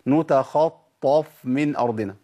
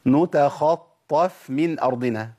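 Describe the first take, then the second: First: نتخطف with a thick heavy f. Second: نتخطف with a thin light f. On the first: Teacher shows the wrong heavy f. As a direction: darken the f in نتخطف. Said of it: "الخطأ فين؟". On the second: Teacher recites the correct version. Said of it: "ده الصحيح". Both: Shown as a demonstration.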